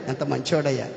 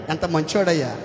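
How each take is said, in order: First: ఎంత మంచోడయ్యా much lower and softer, fading away; soft echo. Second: Said in the usual way. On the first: Real, not acted. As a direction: let the repeat drop to a hush. (మెల్లగా, తగ్గిన గొంతుతో) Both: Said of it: "అబ్బా, ఎల్కానా ఎంత ప్రేమ కలిగినోడయ్యా".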